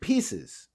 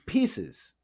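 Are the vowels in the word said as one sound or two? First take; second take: one sound; one sound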